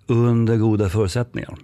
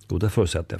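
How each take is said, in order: First: Under goda förutsättningar with a little more push on Under; emphasized phrase. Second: Said in the usual way. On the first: Shown as a demonstration. Coach explaining green people, stressing the condition.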